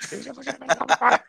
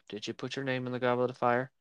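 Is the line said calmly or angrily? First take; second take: angrily; calmly. First: It is said angrily and forcefully. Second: It is said calmly and seriously.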